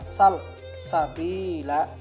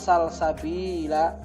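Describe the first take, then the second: First: It is said with a pause after sal. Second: It is said smoothly with no pause inside. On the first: It is a command to ask about a way. The speaker calls it wrong. "dengan jeda di tengahnya" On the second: It names a spring in paradise. The speaker calls it right. "tanpa ada jeda di tengah"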